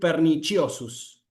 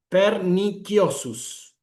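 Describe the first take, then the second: First: It uses the ecclesiastical pronunciation of the c. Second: It uses the classical pronunciation of the c. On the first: This is the later Italian church usage. "la pronunciación italiana o eclesiástica" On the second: This is how Romans of the Empire spoke. "una pronunciación clásica del latín"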